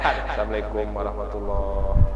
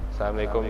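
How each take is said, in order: First: The greeting is said slowly. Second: The greeting is said fast.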